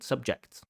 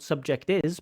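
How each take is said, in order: First: The t and s join as one consonant cluster. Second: An extra vowel is added before the final s. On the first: The speaker calls it right. "but subjects" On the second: The speaker calls it wrong. "not subject is"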